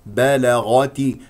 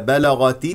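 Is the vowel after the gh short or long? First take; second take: long; short. First: The vowel after the gh is stretched long. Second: The vowel after the gh is kept short. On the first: The speaker calls it wrong. "لا تقل" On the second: The speaker calls it right. "هكذا خلص الحروف"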